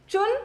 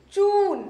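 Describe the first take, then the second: First: चुन with a short u; quick u in चुन. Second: चून with a long, higher oo; चून, vowel drawn out high. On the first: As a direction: say चुन with a brief vowel. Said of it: "छोटी ऊ की मात्रा यानी". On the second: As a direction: stretch the oo in चून. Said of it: "स्वर थोड़ा सा खींचना है". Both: Shown as a demonstration.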